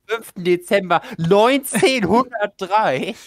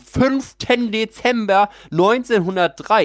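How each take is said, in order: First: The dramatic escalating tone starts later. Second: The dramatic escalating tone starts too early. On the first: The speaker calls it right. "Ich wollte eigentlich sagen" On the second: The speaker calls it wrong. "Ich habe den Tonfall zu früh ... Hab zu früh den Dramamodus eingeschaltet"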